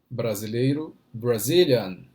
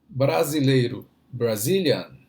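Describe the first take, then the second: The two takes are said the same way.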